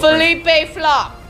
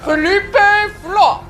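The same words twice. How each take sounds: First: It is said in a plain, unaccented voice. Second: It is said with a put-on French accent. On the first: The speaker calls it wrong. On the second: The speaker calls it right.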